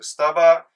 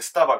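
First: It is said with the Kanto pitch pattern. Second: It is said with the Kansai pitch pattern. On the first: "スタバが多分関東。" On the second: "スタバが関西。"

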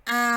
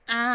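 The two takes are said the same way.

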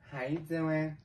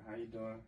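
First: It is said in a put-on girl voice. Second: It is said in his normal voice.

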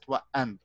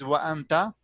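First: The word ends on a consonant, vowel dropped. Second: The word ends with a final vowel sound. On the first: The speaker calls it right. "but we pronounce it wa'ant" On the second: The speaker calls it wrong. "it is wa'anta"

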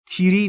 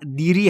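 First: It begins with a plain t sound. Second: It begins with a plain d sound. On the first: "تیری نیست" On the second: "دیری هم نیست"

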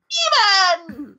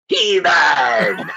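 First: The Skeletor voice is higher pitched. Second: The Skeletor voice is lower pitched.

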